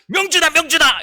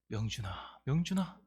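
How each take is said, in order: First: It is called out in an angry voice. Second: It is called out in a sorrowful voice.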